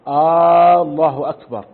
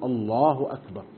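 First: The opening vowel of the first word is drawn out. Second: No sound in the first word is drawn out. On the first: It asks whether God is greatest. The speaker calls it wrong. "إن مد همزة الله" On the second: It states that God is greatest. The speaker calls it right. "السنة ألا يمد"

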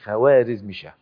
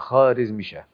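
First: The w sound after the first consonant is pronounced. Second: The w sound after the first consonant is silent. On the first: The speaker calls it wrong. "احنا بنقول خوارزمشاه ده ونطق الصحيح مش خوارزمشاه" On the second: The speaker calls it right. "الواو دي يسموها الواو الفارسية المعدولة ولا تنطق، تكتب ولا تنطق، يبقى خوارزمشاه"

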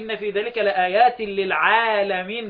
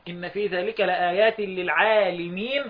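First: The lam in the last word takes an a vowel. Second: The lam in the last word takes an i vowel. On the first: It means for all the worlds. "جمع عالم" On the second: It means for those with knowledge. "اكسروا علا"

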